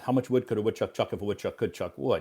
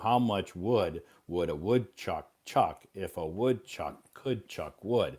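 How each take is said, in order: First: It is said fast. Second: It is said slowly.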